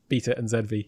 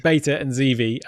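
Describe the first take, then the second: First: It is said in a British accent. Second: It is said in an American accent.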